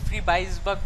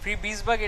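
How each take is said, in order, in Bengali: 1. মাঝের সিলেবলটি 'bize' এর মতো শোনাচ্ছে। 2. মাঝের সিলেবলটি 'bees' এর মতো শোনাচ্ছে। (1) "আমি ফ্রি বাইস বাগ বলতে ভালো লাগে আর কি" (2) "এটা হচ্ছে original spelling, sorry original pronunciation"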